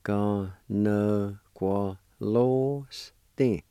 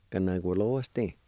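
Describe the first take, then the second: First: Ganagualoste stretched out very slowly, syllable by syllable; very slow sounding out. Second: Said in the usual way. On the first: Shown as a demonstration. Teacher to students learning Cherokee: very slow, stretched sounding out. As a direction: drag out Ganagualoste for learners to copy. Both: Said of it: "And it's pronounced like this".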